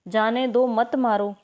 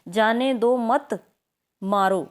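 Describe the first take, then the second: First: The pause comes after 'jaane do'. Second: The pause comes after 'jaane do mat'.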